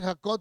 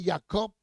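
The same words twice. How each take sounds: First: The name is said in its usual Spanish form. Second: The name is said in a Hebrew-like form. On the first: The speaker calls it wrong. "no se dice Jacob" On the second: The speaker calls it right. "se dice Jacob"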